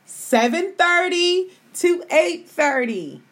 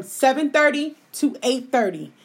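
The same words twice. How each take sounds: First: "Seven thirty to eight thirty" slow, higher and drawn out; emphatic repeat. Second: Said in the usual way. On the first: Real, not acted. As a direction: spell out "Seven thirty to eight thirty" slowly, each time held. Repeats new time so listeners remember.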